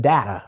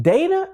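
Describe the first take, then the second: First: "data" said as DAT-uh; DAT-uh pronunciation. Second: "data" said as DAY-tuh; DAY-tuh pronunciation. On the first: Teacher asking viewers which is right, "data" as DAT-uh. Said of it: "or is it data". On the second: Teacher asking viewers which is right, "data" as DAY-tuh. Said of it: "Is it data or is it data". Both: Shown as a demonstration.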